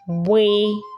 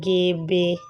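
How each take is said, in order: First: The letter is said as one joined sound. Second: The letter is said as two separate sounds. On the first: The speaker calls it right. "it is pronounced as one letter, and the correct pronunciation is bwe" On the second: The speaker calls it wrong. "don't go and say gebe"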